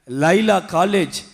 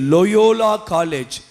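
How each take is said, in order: First: The name is said as Laila, two syllables. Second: The name is said as Loyola, three syllables. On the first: The speaker calls it wrong. "இது லைலா college அல்ல" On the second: The speaker calls it right. "லோயோலான்னு சொல்லு"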